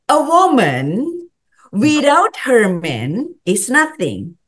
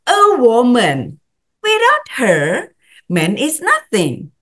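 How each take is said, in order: First: The phrase breaks after the word man. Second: The phrase breaks after the word her. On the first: A woman is worthless without a man. "Cewek tanpa cowoknya nggak ada artinya" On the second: A man is worthless without a woman. "Sekarang bedain dengan"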